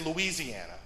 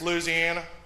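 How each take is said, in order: First: It is said with an Indiana accent. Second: It is said with a Louisiana accent. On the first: "If you're from here, you say Louisiana" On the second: "If you're from there, it's Louisiana"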